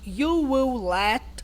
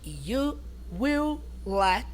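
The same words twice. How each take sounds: First: The word will is contracted onto you. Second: The word will is said in full.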